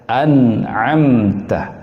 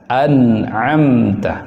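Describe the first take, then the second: No difference in how they are said.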